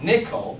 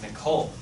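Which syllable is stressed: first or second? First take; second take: first; second. First: The stress is on the first syllable. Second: The stress is on the second syllable. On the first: The speaker calls it wrong. "It's not Nicole" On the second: The speaker calls it right. "So the O of that is the stressed syllable"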